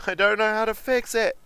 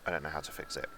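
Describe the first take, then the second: First: Much higher, louder, frantic panic; high frantic wail. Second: Said in the usual way. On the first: Acted. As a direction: wail it out in mock despair.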